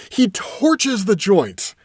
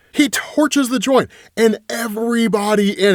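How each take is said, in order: First: Slow emphatic. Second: Said in the usual way. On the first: Shown as a demonstration. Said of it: "He torches the joint and everybody in it".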